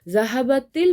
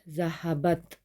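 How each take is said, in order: First: The t is linked with an i vowel. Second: The word ends on a bare t sound. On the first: "जब मैं इसको ज्वाइन करके पढ़ूंगी" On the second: "मैंने ज़हाबत अलग अलग बोला था"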